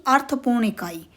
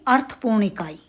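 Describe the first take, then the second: The two takes are said the same way.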